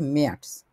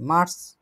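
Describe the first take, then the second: First: ম্যার্স with a front vowel and a final ts sound; German März. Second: Said in the usual way. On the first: Shown as a demonstration. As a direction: say ম্যার্স instead of মার্চ. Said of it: "মার্চ মাস বলি আমরা". (German উচ্চারণে ম্যার্স) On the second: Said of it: "ওটা হচ্ছে ম্যার্স".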